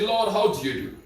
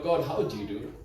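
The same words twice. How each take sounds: First: Said in the usual way. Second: Dropped low and soft, an earnest aside; hushed repeat of the prayer; soft quoted prayer. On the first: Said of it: "This boy just said". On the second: Retold or imitated. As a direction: ask it gently, almost to yourself. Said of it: "asks God".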